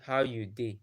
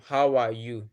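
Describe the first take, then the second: First: Pidgin English "How you dey?", said as how-you-day. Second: Said in the usual way. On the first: Shown as a demonstration. A Nigerian friend showing the group Pidgin: "How you dey?". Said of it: "we will say". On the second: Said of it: "Instead of us to say".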